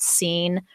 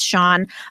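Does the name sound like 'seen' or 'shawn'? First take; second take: seen; shawn. First: The name is said like the word seen. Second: The name is said like shawn. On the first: The speaker calls it wrong. "I thought it was just Scene for the longest time" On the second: The speaker calls it right. "but it's Sean"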